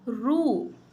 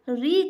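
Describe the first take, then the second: First: The r is followed by an u vowel. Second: The r is followed by an i vowel. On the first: This is the Odia pronunciation. "अगर उसको ओड़िया में कहेंगे तो क्या होगा" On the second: This is the Hindi pronunciation. "Hindi में उसको री कहा जाता है"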